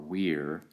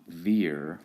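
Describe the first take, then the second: First: The word begins with a W sound. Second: The word begins with a V sound. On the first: This is the classical Latin pronunciation. "classical Latin pronunciation generally requires you to pronounce the V as a W" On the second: This is the ecclesiastical Latin pronunciation. "in which you pronounce the V as a V"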